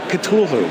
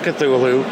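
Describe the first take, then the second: First: It is said with a British pronunciation. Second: It is said with an American pronunciation. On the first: "across a pond they say Cthulhu" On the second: "that's how I pronounce it ... we're from America"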